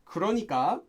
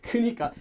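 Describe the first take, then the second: First: The word is said in full, with all syllables. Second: The word is said shortened, dropping a syllable.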